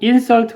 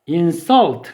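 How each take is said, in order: First: The stress is on the first syllable. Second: The stress is on the second syllable. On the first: It is a noun meaning an offense. "강세를 앞에 두고 insult 그러면 명사로 모욕이고요" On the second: It is a verb meaning to offend. "강세를 뒤에 두고 insult 그러면 얘는 모욕하다예요"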